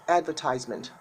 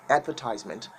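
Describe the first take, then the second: No difference in how they are said.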